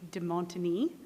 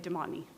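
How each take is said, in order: First: The name is said with a French accent. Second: The name is said with an English accent. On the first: This is how it would sound in French. "if I had a French accent, it would be" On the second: This is the speaker's own everyday pronunciation. "but I say"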